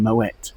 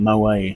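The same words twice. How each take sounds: First: The final T sound is pronounced. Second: The final T sound is left silent. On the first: The speaker calls it right. "careful to pronounce the T in Moet" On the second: The speaker calls it wrong. "rather than saying"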